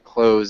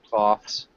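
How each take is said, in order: First: The 'th' is dropped, sounding like close. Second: The 'th' sound is clearly pronounced. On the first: The speaker calls it right. "clothes is the the best way to pronounce it" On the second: The speaker calls it wrong. "it looks like clothes, cloths"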